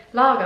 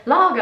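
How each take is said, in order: First: Imitated English accent, a single louder word. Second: Higher, louder imitated annoyed English woman; really annoyed. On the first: Customer repeating her order to the waitress, imitated English accent. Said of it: "she had an English accent". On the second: Annoyed customer repeating her order to the waitress, imitated exasperation. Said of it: "she get really annoyed".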